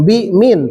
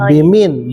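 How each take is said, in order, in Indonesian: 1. Ada jeda di antara bi dan min. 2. Bi dan min disambung tanpa jeda. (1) "Bukan bimin" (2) "Biar terdengarnya bimin, enak gitu"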